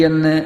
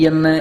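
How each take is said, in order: Both takes have the same delivery.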